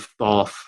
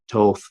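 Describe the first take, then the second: First: The word begins with a th sound. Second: The word begins with a plain t sound. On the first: "I default to Thoth" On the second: "it's probably supposed to be the Toth"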